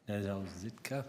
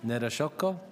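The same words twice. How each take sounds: First: "Nedozitka" said with a z sound and an a ending; "Nedozitka", a wrong guess with z and a final a; mispronounced name. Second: "Nedoshotko" repeated as ne-do-SHOT-ko with sh and a final o; "Nedoshotko", a careful correct try with a questioning rise; corrected pronunciation. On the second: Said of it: "How do you pronounce it?". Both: Real, not acted.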